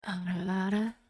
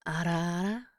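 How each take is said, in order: First: Softer, lower mommy voice. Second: Put-on lightly breathy teasing older-woman voice; teasing ara ara. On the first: Pretend. Streamer channels a soft mommy voice for chat. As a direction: coo it softly like a doting mother. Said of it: "I have to channel the mommy voice for it". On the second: Streamer teases chat with a lightly put-on mommy coo. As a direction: coo it like a teasing big sister.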